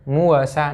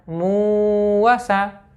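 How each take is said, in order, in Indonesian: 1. Vokalnya dibaca pendek. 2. Vokalnya dibaca panjang. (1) "tapi muasa, tidak boleh panjang" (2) "jangan dibaca muasa, jangan baca seperti itu"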